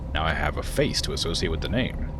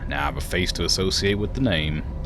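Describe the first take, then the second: First: It is spoken in a plain, unaccented voice. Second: It is spoken in a put-on Southern accent.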